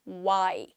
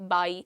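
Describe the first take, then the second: First: It starts with rounded lips, a w sound. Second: It starts with teeth on the lip, v-like. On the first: The speaker calls it right. "Proper डब्ल्यू का pronunciation है" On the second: The speaker calls it wrong. "आपका जो front set of teeth है वो इधर लगेगा यहाँ lips पे"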